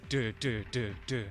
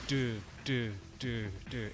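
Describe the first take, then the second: First: The sounds come at a fast pace. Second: The sounds come at a slow pace. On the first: The game is running at full speed. The speaker calls it right. "It's supposed to be" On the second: The game is running below full speed. The speaker calls it wrong. "It's not supposed to be"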